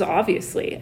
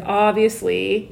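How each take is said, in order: First: Said in the usual way. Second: Drawn-out obviously, rising at the end; slow, lilting stock answer; canned response. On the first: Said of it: "mine in the past was". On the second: Acted. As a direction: stretch it out like an automatic reply. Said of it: "I'd be like".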